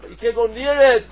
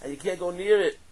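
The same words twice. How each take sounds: First: Emphatic louder repeat. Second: Said in the usual way. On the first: Acted.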